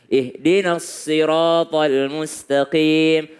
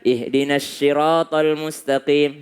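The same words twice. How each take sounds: First: The sad sound is said like 's'. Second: The sad sound is said like 'sh'. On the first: The speaker calls it right. "Lebih dekat kepada huruf sin" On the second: The speaker calls it wrong. "syiratal, salah"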